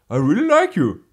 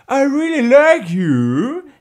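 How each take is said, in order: First: The phrase is said in a sincere tone. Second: The phrase is said in an insincere tone. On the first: The speaker really means it. "then you mean it" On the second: The speaker does not really mean it. "and then you don't mean it"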